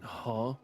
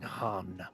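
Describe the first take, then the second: First: The vowel is said without a full n sound. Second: The vowel is followed by a full n sound. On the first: The speaker calls it right. "it's more like saying huh" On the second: The speaker calls it wrong. "rather than saying han"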